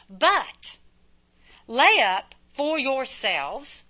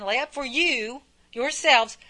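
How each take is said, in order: First: Slow, measured scripture reading, drawn-out "yourselves". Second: "you" singled out and stretched before "yourselves"; stress on YOU. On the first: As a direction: read "lay up for yourselves" slowly, word by word. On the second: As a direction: lean on "you", then restate "yourselves". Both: Shown as a demonstration. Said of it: "there's me again".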